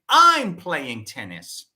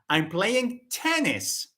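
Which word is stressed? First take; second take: I'm; tennis. First: The stress is on the word I'm. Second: The stress is on the word tennis. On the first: It is me, not someone else, who is playing. "The focus is on I" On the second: It is tennis, not another sport. "Not football, no"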